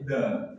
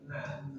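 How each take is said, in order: First: The letter is said thick and heavy. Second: The letter is said thin and light. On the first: The speaker calls it wrong. "tidak boleh" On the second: The speaker calls it right.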